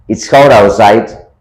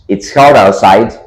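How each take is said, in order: The two takes are said the same way.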